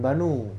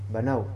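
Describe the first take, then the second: First: The word ends in a plain 'u' vowel. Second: The word ends in an 'au' glide. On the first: The speaker calls it wrong. "Bukan banu" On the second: The speaker calls it right.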